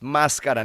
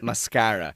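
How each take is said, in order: First: The stress is on the first syllable. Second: The stress is on the second syllable. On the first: The speaker calls it right. "yung accented A is already in the first A. It's mascara" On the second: The speaker calls it wrong. "not mascara"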